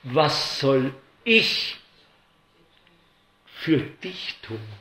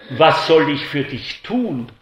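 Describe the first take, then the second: First: Very slow, each word given weight; preacher dwelling on Jesus' question; slow, weighty question. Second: Said in the usual way. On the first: Shown as a demonstration. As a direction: let the question hang in the air. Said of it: "Denn Jesus sagt ja".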